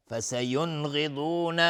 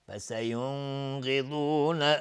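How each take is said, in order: First: Chanted "فسینغضون" with a clear, unheld n; no ghunna. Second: Slow "فسینغضون" with the first n held in a hum; with unwanted ghunna. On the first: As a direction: release the n straight into gh in "فسینغضون". («فسینغضون» با نون بدون غنه) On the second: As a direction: linger nasally on the n before gh in "فسینغضون". («فسینغضون» با غنه روی نون) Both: Shown as a demonstration. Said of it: "غنه نمیخواد".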